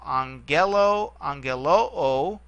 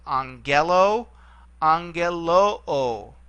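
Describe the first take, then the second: First: Angelo then angeloo with the final oo held long and rising; slow, stress the end of angeloo; accent shift. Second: Angelo with the accent early, angeloo stretched slowly with the accent on the end; angeloo: draw out the final oo, stressed; accent shift. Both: Shown as a demonstration. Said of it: "the only way to tell a difference with this one is the shift in accent".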